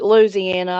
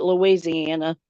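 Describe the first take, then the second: First: "Louisiana" clipped as Loo-zee-AN, the ending swallowed; other people's Louisiana. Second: "Louisiana" stretched to Loo-ee-zee-AN-uh, every syllable sounded; local Louisiana. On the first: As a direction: say "Louisiana" quickly, squeezed together like outsiders do. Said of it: "Some people call it". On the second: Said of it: "I call it". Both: Shown as a demonstration.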